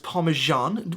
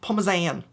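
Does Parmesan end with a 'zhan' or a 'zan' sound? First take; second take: zhan; zan. First: The last syllable has a 'zh' sound. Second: The last syllable has a plain 'z' sound. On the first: The speaker calls it wrong. "we pronounce this Parmesan. Where, where did the J come from?" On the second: The speaker calls it right. "to pronounce this correctly, and it's just Parmesan. Gotta make sure it ends on the zan"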